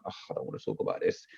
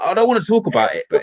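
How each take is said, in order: First: Low, quick groan of reluctance, re-enacted; weary reluctance. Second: High, loud re-enacted protest; exasperated refusal. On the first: Husband refusing wife's fear talk, weary acted groan. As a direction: grumble it out, dropped right down in pitch. Retelling his refusal to wife. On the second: Husband refusing wife late at night, acted exasperation. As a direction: plead to be left alone, pitch jumping up. Retelling his second, stronger refusal.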